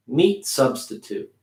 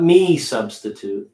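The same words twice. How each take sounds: First: "Meat substitute" with a small, light T in "Meat"; light T, linked. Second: "me substitute" with no T at all after "me"; wrong way, T missing; dropped T. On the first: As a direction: keep the T of "Meat" small but present. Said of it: "Making that T ... making it smaller". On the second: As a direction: leave out the T, say "me substitute". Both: Shown as a demonstration.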